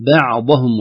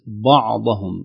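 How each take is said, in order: First: بعضهم with a thin ba before the dad; light ba. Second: بعضهم with the ba darkened by the dad; wrong heavy ba. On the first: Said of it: "وليست بعضهم". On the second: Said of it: "تؤثر بالضاد بعدها". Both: Shown as a demonstration.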